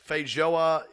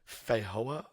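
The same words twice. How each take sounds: First: The j is said as a j sound. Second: The j is said as a y sound.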